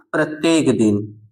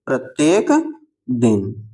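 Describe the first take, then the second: First: Said in the usual way. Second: प्रत्येक, a gap, then दिन; प्रत्येक दिन drawn out for note-taking; slow dictation. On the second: Shown as a demonstration. Repeats answer slowly for learners.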